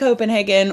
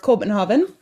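First: It is pronounced the usual English way. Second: It is pronounced the way locals say it.

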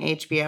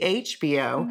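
First: The stress is not on the first syllable. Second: The stress is on the first syllable. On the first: "Instead of saying HBO" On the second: "I just put the emphasis on the first syllable like a true Southerner"

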